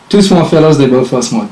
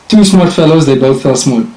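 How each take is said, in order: No difference in how they are said.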